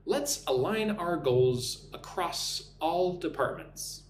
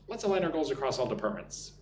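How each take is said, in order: First: Slow, spaced phrases with clear words; measured dictation pace for learners to copy; slow repeat-after-me model. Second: Quick, connected run through the sentence; natural-speed take. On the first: Teacher giving a sentence to repeat, slow and clear. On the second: Teacher repeating the sentence at speed, quick and linked. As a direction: say it fast in one smooth go. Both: Shown as a demonstration. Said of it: "Listen and repeat after me".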